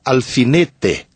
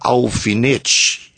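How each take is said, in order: First: It is said in a Paraná accent. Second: It is said in a Rio de Janeiro accent. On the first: "no Paraná você falaria alfinete" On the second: "No Rio de Janeiro falaria alfinete"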